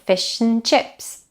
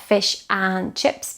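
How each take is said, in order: First: The word 'and' is quick, quiet and unstressed. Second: The word 'and' is stressed like the others. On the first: The speaker calls it right. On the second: The speaker calls it wrong.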